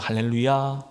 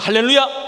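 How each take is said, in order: First: The word is said plainly, without raising the voice. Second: The word is shouted loudly with strong energy. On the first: "그냥 할렐루야 하십니까?" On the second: "할렐루야 라고 여러분 외치십니까?"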